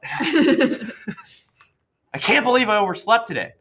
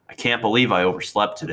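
First: It is read expressively, in character. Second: It is read flatly, without expression.

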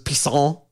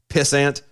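First: The name is said with a French pronunciation. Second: The name is said with an English pronunciation. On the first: "It was French" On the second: "his undercover name was Pissant"

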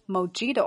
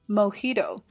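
First: The j is sounded like an English j. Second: The j is sounded like an h. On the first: The speaker calls it wrong. "所以这款鸡尾酒不读作mojito 啊" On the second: The speaker calls it right. "在西语当中字母J 发的音"

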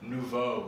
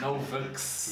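First: The word ends in a vowel, no x sound. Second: The word ends with a pronounced x sound. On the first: The speaker calls it right. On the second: The speaker calls it wrong.

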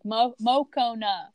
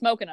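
First: The name is drawn out slowly. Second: The name is said quickly as one word. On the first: The speaker calls it wrong. "they said his name so slowly" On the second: The speaker calls it right. "Say it in all one word"

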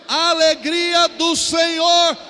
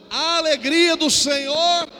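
The two takes are said the same way.

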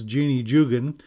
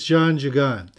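First: The name is said with an English pronunciation. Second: The name is said with a French pronunciation. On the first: The speaker calls it wrong. "we probably say her name was" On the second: The speaker calls it right. "but it's"

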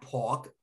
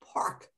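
First: It has a New York accent, R dropped. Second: It is said with the R clearly pronounced.

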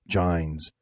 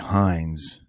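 First: The name begins with a J sound. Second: The name begins with an H sound. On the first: "but I don't think he pronounces it that way" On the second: "I would say Hines, the J pronounced like an S"

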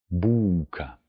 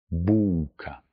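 The two takes are said the same way.

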